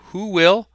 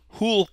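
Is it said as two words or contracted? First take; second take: two words; contracted. First: It is said as two full words. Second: It is said as one contracted syllable.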